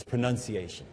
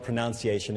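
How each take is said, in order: First: "pronunciation" with second syllable as "nun"; corrected pronunciation. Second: "pronunciation" with second syllable as "noun"; rejected pronunciation. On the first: Listener correcting a speaker, "pronunciation" said with "nun". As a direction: say "pronunciation" as pro-NUN-see-ay-shun. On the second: Listener correcting a speaker, "pronunciation" said with "noun". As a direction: say "pronunciation" as pro-NOUN-see-ay-shun. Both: Shown as a demonstration. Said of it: "it's not pronunciation".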